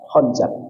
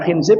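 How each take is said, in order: First: The name is said with u and a vowels. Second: The name is said with i vowels. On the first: "bisa dibaca khunzab" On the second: "Bisa dibaca khinzib"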